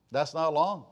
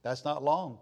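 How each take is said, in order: Both takes have the same delivery.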